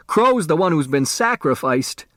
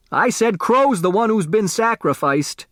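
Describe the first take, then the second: First: Said in the usual way. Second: Pitched up high, pressing the point again; insistent repeat. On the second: A narrator's reading. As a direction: repeat it higher and more insistent, as if he wasn't heard. Repeats louder when asked.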